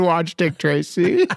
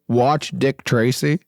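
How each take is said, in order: First: Slow announcement. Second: Slow, spelled-out pitch; slow and deliberate. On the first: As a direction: announce it slowly to listeners. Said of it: "We ask everybody in our audience". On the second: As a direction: lay it out slowly. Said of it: "pitching the movie twice". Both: Shown as a demonstration.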